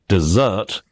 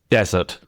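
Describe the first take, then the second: First: The stress is on the second syllable. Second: The stress is on the first syllable. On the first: It is the verb meaning to abandon. "the stress is on the second syllable" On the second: It is the noun meaning a dry region. "the stress is on the first"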